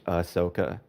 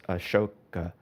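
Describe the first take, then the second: First: The H is soft, nearly silent. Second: The H is sounded hard, merging into the s. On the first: The speaker calls it right. "you would say it's like a soft H" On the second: The speaker calls it wrong. "I pronounce it As- Ashoka, but that is wrong"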